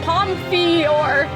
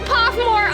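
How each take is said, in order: First: The name ends with a 'fior' sound. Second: The name ends with a 'more' sound. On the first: The speaker calls it right. "Oh my god, Pomfior" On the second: The speaker calls it wrong. "I called it Pophmore all throughout"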